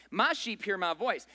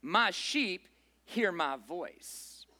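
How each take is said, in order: First: Said in the usual way. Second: Stretched-out slow reading of "My sheep hear my voice"; slow emphatic quote. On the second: Shown as a demonstration. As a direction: linger on every word of "My sheep hear my voice". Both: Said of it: "In contrast to that".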